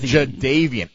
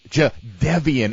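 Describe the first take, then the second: First: The name is pronounced loosely, with syllables run together. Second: The name is pronounced with careful, clear syllables. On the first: "instead of" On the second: "so clearly enunciates Jadeveon"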